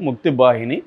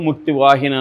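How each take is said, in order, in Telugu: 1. రెండవ పదం b ధ్వనితో మొదలవుతుంది. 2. రెండవ పదం v ధ్వనితో మొదలవుతుంది. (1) "బెంగాలీలు అన్నీ వాను బాగా పలుకుతారు" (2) "మనం తెలుగులో ముక్తి వాహిని అని పిలవచ్చు"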